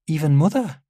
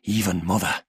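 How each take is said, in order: First: Put-on higher-pitched child asking, rising; child's questioning voice. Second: Even, measured father confirming it; father's firm answer. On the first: Daughter asks her father about Mother, high child voice. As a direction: ask it as a little girl, high and unsure. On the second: Father tells his daughter, measured and firm. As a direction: confirm it as a grave statement. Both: A narrator's reading.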